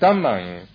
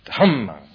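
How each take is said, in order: First: The first consonant is unaspirated, without a breath. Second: The first consonant is aspirated, with a breath. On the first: The speaker calls it wrong. "And I was saying Dhammang" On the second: The speaker calls it right. "no, it's Dhammang"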